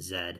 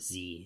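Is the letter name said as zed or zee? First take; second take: zed; zee. First: The letter is said as zed, non-American style. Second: The letter is said as zee, American style.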